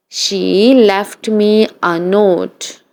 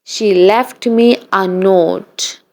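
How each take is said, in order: Both takes have the same delivery.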